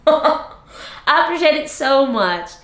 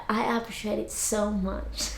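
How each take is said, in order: First: Higher, livelier gratitude after a laugh; laugh, then say it out brightly and higher; animated thanks. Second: Very soft, near-whispered gratitude; hushed thanks. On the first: Repeats thanks louder after laughing. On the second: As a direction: say it under your breath, much softer. Soft thanks, then repeated louder. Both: Real, not acted.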